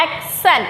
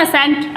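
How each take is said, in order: First: एक्सेंट said with a clear k, "ek-sent"; careful model of एक्सेंट as "EK-sent"; correct pronunciation. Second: असेंट said without the k, "a-sent"; wrong take, असेंट as "uh-SENT"; mispronunciation demo. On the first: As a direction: sound both k and s in एक्सेंट. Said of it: "इसको बोलते हैं". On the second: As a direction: drop the k in असेंट. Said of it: "असेंट word नहीं होता". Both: Shown as a demonstration.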